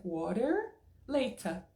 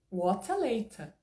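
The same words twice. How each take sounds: First: American WATER with R, then British LATER without it; slow switch from American WATER to British LATER; mismatched accents. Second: WATER and LATER both British, crisp T and no R; slow, consistent British WATER LATER; British accent, both words ending in A. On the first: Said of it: "mas fica estranho". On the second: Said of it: "tudo com a pronúncia mais britânica". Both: Shown as a demonstration.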